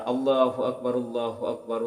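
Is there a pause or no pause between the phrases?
no pause. The phrases run together without stopping.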